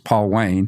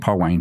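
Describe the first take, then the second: First: The name is said slowly, as two words. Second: The name is said quickly, like one word.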